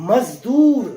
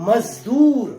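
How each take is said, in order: Both takes have the same delivery.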